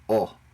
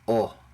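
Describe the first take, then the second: Both takes have the same delivery.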